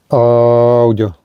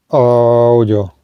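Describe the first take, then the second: No difference in how they are said.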